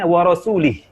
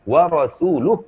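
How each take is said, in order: First: The final syllable has the vowel i. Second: The final syllable has the vowel u. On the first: God disowns the idolaters and the messenger. The speaker calls it wrong. "laki-laki ini membaca" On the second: The messenger also disowns the idolaters. The speaker calls it right. "wa rasuluh bama huruf lamnya"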